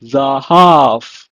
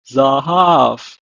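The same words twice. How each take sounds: First: Zahav said loud, final v like f; Hebrew pronunciation. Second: Zahav repeated, open a sounds; Hebrew pronunciation. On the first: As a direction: model Zahav clearly. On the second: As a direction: model Zahav again. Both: Shown as a demonstration. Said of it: "pronounced in Hebrew as".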